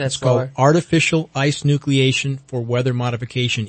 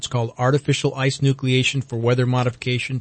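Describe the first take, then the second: First: The phrase is spoken at a slower, deliberate pace. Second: The phrase is spoken at a normal, quicker pace.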